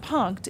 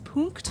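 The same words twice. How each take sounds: First: The name is said with the rejected pronunciation. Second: The name is said with the accepted pronunciation. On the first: The speaker calls it wrong. "It's not Punkt" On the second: The speaker calls it right. "it's Punkt"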